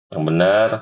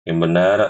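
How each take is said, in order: No difference in how they are said.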